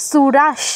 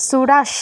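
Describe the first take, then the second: The two takes are said the same way.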